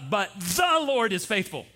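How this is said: The word 'the' is stressed. "now we're going to say the"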